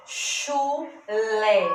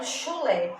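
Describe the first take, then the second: First: CHU, pause, LÉ, each syllable held; split into syllables. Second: Said in the usual way. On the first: Shown as a demonstration. Teacher showing two syllables in chulé, syllable by syllable. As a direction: sound out chulé in two separate beats. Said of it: "Eu abro a boca duas vezes pra pronunciar". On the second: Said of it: "Eu abro a boca duas vezes".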